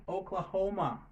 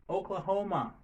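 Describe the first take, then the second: Both takes have the same delivery.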